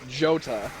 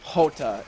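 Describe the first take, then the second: First: The name begins with a J sound. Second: The name begins with an H sound. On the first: The speaker calls it wrong. "It's not Jota" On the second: The speaker calls it right. "the pronunciation of his name is Hota"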